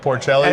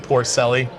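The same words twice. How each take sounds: First: The name is said with Italian-style pronunciation. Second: The name is said with plain American pronunciation. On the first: The speaker is playing up his Italian heritage. "if you're feeling Italian" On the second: This is his everyday way of saying it.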